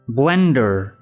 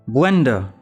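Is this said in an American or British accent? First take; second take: American; British. First: It is said in an American accent. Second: It is said in a British accent. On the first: "American accent" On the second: "British accent"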